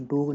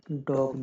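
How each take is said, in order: First: डॉग said as "doog" or "dohg"; wrong rounded vowel. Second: First डॉग with an open o; short O sound. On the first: Teacher rejecting a misreading, डॉग with rounded vowel. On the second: Teacher showing the word, डॉग with short o. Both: Shown as a demonstration. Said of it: "डॉग नहीं होगा".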